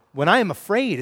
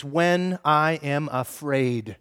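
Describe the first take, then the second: First: Said in the usual way. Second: When I am afraid, read very slowly; slow emphatic reading. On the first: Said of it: "is that what it says?". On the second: Shown as a demonstration. Pastor reading the verse slowly to the congregation. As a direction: draw out When I am afraid word by word. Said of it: "notice what you see in verse three".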